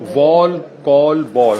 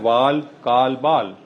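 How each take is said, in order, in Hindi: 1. स्वर मानक अंग्रेज़ी तरीके से बोले गए हैं। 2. स्वर स्थानीय उर्दू-भाषी तरीके से बोले गए हैं।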